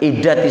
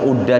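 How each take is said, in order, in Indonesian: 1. Vokal pertama adalah bunyi 'i'. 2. Vokal pertama adalah bunyi 'u'. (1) "dibaca idati" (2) "jangan dibaca"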